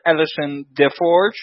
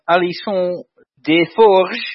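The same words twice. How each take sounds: First: The name is said with an American pronunciation. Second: The name is said in a non-American way. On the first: The speaker calls it right. "In American English, you would call her" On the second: The speaker calls it wrong. "that's probably not her name"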